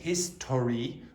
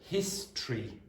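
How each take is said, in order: First: The middle vowel is clearly pronounced. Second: The middle vowel is dropped. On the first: The speaker calls it wrong. "we don't say history" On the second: The speaker calls it right. "we say history ... The O is almost always ... removed"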